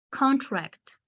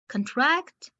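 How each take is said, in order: First: "Contract" stressed on the first syllable, CON-tract, falling; noun stress. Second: "contract" stressed on the second syllable, con-TRACT, rising; verb stress. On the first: Teacher shows a word as a noun, "Contract" stressed on CON. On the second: Teacher shows a word as a verb, "contract" stressed on TRACT. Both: Shown as a demonstration. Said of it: "the pronunciation can be different".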